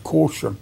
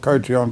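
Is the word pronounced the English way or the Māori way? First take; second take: English; Māori. First: The word is pronounced with English vowel sounds. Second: The word is pronounced with Māori vowel sounds. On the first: The speaker calls it right. "it's caution" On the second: The speaker calls it wrong. "she's saying it in a Māori way"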